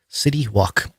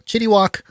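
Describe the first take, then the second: First: The first word begins with an s sound. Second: The first word begins with a ch sound.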